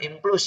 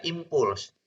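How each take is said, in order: First: Impuls said as implus, l slipped ahead of the u; wrong way of saying impuls. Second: Impuls said im-puls, u before the l; correct impuls. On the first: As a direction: show the mistake, impuls as im-plus. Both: Shown as a demonstration. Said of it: "Bukan impuls ya".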